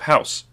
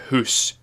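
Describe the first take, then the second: First: It is said with a standard ow vowel. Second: It is said with a Scottish oo vowel.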